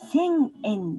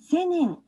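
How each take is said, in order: First: The n is held as its own separate beat. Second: The n joins the following vowel as one syllable. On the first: The speaker calls it right. "千円です。んも、せや、えと同じように、一つの長さです。" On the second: The speaker calls it wrong. "せねんではありません。"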